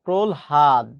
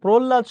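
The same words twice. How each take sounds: First: "প্রলহাদ" low, as prol-had; correct pronunciation. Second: "প্রহ্লাদ" said as prol-lad; common pronunciation. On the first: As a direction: break "প্রলহাদ" before a clear h. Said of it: "সঠিক উচ্চারণ হচ্ছে এটা". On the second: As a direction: double the l in "প্রহ্লাদ", no h. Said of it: "প্রহ্লাদ শব্দের সঠিক উচ্চারণ". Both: Shown as a demonstration.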